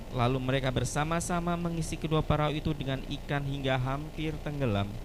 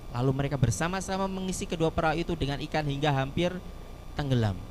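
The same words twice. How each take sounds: No difference in how they are said.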